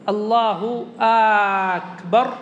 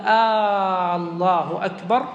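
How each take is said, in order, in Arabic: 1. يُمَدُّ الحرف الأول من الكلمة الثانية. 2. يُمَدُّ الحرف الأول من الكلمة الأولى. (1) "لا إن مد همزة الله أو همزة أكبر" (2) "لا إن مد الهمزة"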